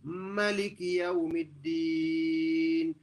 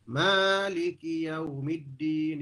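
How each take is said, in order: First: The first vowel is kept short. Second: The first vowel is drawn out long. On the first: It means the king of the day of judgment. "dengan dipendekkan mim" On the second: It means the owner of the day of judgment.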